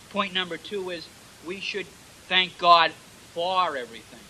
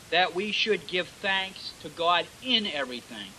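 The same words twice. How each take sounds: First: "for" punched apart from "in"; stress on FOR. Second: Said in the usual way. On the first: Shown as a demonstration. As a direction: lean hard on the word "for" in "for everything". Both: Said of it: "The emphasis on the word for".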